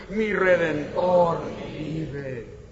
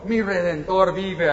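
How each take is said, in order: First: Mi Redentor vive drawn out very slowly for the congregation to repeat; slow leading chant for the congregation; very slow call and response. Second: Mi Redentor vive said slowly, each word weighed; preacher's slow emphatic declaration; slow proclamation. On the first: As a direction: lead the crowd, stretching every syllable. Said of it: "A ver, dilo conmigo". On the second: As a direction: declare Mi Redentor vive as the sermon's key line. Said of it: "dilo conmigo". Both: Shown as a demonstration.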